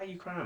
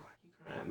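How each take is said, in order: First: Said in the usual way. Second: Breathy whispered question with almost no voice. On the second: Retold or imitated. To his crying father on the phone, whispering. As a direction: barely get the words out, whispering. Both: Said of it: "Mind you, I'm still like this".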